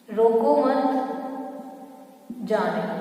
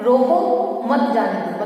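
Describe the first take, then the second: First: There is a pause after मत. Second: There is a pause after रोको.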